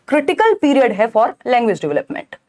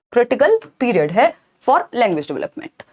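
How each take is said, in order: First: क्रिटिकल punched, whole phrase slow; slow, stressing क्रिटिकल. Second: क्रिटिकल punched, whole phrase slow and deliberate; slow dictation, leaning on क्रिटिकल; stress on क्रिटिकल. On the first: Teacher stressing क्रिटिकल for exam students, slow. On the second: Teacher repeating क्रिटिकल so students note it, slow. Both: Shown as a demonstration. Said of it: "repeated for emphasis".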